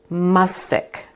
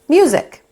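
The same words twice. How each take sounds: First: The first vowel sounds like 'uh'. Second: The first vowel sounds like 'you'. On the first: The speaker calls it wrong. "we would probably read it like this" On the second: The speaker calls it right. "we got to the correct word"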